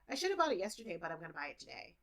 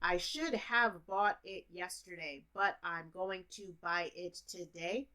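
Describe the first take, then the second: First: The words are reduced and run together quickly. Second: Every word is pronounced fully and separately. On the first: This is how native speakers really say it. "but what it sounds like" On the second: This is the sentence as it is written. "That's what you read"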